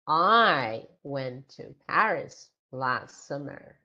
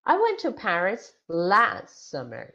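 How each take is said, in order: First: The stress falls on the word I. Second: The stress falls on the words last summer. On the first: It tells who went. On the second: It tells when the person went.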